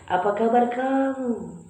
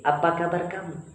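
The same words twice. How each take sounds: First: It is said in a sweet, melodious, wavy voice. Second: It is said in a plain, flat everyday voice. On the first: "Yang terakhir itu yang merdu" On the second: "Itu bi- biasa saja"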